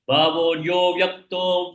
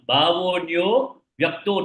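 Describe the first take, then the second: First: There is no pause after "yo". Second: There is a pause after "yo". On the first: The following word is heard as avyakta. The speaker calls it right. "Like that" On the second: The following word is heard as vyakta rather than avyakta. The speaker calls it wrong. "When you put a pass, it becomes like vyakta. ... Don't say that"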